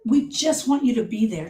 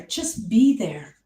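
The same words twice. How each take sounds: First: Said in the usual way. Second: Slow, breathy whisper of advice; hushed, unhurried reminder. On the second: Shown as a demonstration. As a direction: whisper it gently and slowly. Whispered advice to griever supporters.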